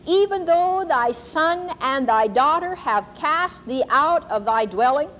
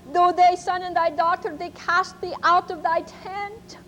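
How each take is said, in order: First: Slow, solemn, rising prophecy cadence; prophetic reading. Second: Put-on German accent. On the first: Shown as a demonstration. Preacher reads the prophecy to the congregation, slow and solemn. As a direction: intone it like a word from God. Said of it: "I'm going to read to you". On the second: Ma repeats the prophecy to the congregation, German accent. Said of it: "kind of a German accent".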